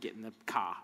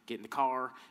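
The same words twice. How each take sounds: First: It is said in a Boston accent. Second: It is said in a Southern accent.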